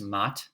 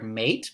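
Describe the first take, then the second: First: The vowel is an 'ah' sound. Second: The vowel is an 'ay' sound. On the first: This is the Middle English pronunciation. "but it'd be pronounced" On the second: This is the modern English pronunciation. "here we have the word mate"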